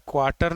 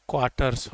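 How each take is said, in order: First: क्वार्टर ending on R, without S; no final S. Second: क्वार्टर्स with a clear S, pitched lower; final S sounded. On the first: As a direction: say क्वार्टर, leaving off the S. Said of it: "नहीं होता है". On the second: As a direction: say क्वार्टर्स low, closing on "rs". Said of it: "होता है". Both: Shown as a demonstration.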